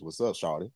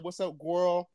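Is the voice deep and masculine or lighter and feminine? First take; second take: deep masculine; lighter feminine. First: It is said in a deep, masculine voice. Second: It is said in a lighter, feminine voice.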